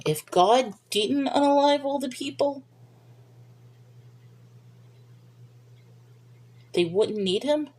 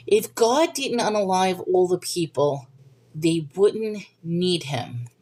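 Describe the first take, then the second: First: "they wouldn't need him" rising into a question; puzzled questioning reread. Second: Said in the usual way. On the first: Real, not acted. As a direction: reread doubtfully, lifting "him" at the end. Rereads comment as a doubtful question.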